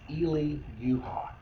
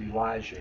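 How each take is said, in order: First: The name is said in the Hebrew way. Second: The name is said in the English way. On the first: "In Hebrew, they pronounce it Eli-Yuha" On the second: "we pronounce it Elijah here"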